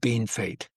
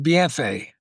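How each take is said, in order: First: The name is pronounced like English 'bean fate'. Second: The name is pronounced the French way. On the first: This is how local people say it. "they just always called it Bean Fate" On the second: This is the original French name. "the French word"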